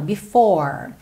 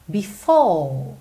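First: The final r is pronounced with a curled tongue. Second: The r is dropped and the final vowel lengthened. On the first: "eu falei before, tipicamente americano" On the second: "Um britânico diz before"

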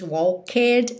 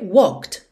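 First: An extra vowel is sounded before the final d. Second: It goes straight from k to d, no vowel. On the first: The speaker calls it wrong. "Você não diz walked, esconde totalmente o E" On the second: The speaker calls it right. "já vai do K pro D"

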